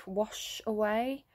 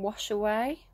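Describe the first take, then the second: First: Slow drawn-out echo. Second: Said in the usual way. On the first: Shown as a demonstration. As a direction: let "wash away" linger slowly like water running. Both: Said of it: "I'm hearing".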